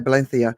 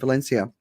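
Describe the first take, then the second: First: The name is said with a Spanish accent. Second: The name is said with an English accent.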